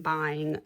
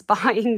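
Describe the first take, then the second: First: Said in the usual way. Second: Buying said slow and much louder through a laugh; buying drawn out loud and slow, half laughing; stress on buying. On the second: Shown as a demonstration. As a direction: lean hard on buying, laughing. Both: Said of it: "I stress buying".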